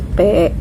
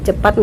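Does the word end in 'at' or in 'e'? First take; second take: e; at. First: The word ends with an 'e' sound instead. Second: The word ends with a full 'at' sound.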